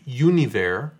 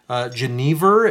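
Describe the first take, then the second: First: The word has a Dutch pronunciation. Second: The word has an English pronunciation. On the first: "If we were pronouncing it the Dutch way" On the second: "as it is pronounced in English"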